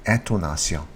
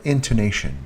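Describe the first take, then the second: First: Intonation said the French way, "an-to-na-syon"; French pronunciation. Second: Said in the usual way. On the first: Shown as a demonstration. Teacher adding the French term, intonation as "an-to-na-syon". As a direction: give intonation French vowels, "-syon" at the end. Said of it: "in French would be". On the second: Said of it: "then we have intonation".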